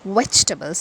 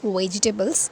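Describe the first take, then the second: First: It is said in a British-American accent. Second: It is said in an Indian English accent. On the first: "if you observe British and American accent, it is vegetables" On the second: "we Indians we pronounce it as vegetables"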